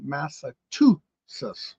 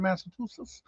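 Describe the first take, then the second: First: "Massachusetts" slowly, drawn out in parts; taught pronunciation. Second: Said in the usual way. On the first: Shown as a demonstration. Streamer shows how Robert taught them to say it, slow sounded-out "Massachusetts". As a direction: sound out "Massachusetts" at half speed. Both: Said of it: "as Robert says to teach me".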